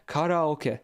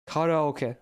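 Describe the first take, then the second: First: The word is pronounced the Japanese way. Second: The same.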